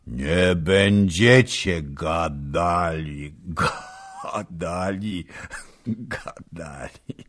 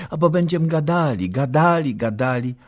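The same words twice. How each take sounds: First: Mock slow drawl. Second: Quick, high, sing-song repetition; teasing wife. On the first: Old nobleman mocking the couple's chatter, slow and fading. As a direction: drag it out knowingly. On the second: Young wife teasing the old man, quick and high. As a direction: chant it cheekily. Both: A narrator's reading.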